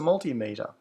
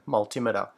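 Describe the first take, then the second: First: The stress is on the first syllable. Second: The stress is on the second syllable. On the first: The speaker calls it right. "I've always said it as multimeter because it is two words" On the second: The speaker calls it wrong. "like altimeter. It sounds strange"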